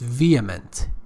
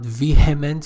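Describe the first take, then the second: First: No h sound is pronounced in the middle. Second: An h sound is pronounced in the middle. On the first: The speaker calls it right. "H is not pronounced" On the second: The speaker calls it wrong. "It's not vehement"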